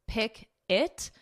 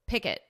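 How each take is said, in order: First: The two syllables are said as separate words. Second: The two syllables are joined into one word.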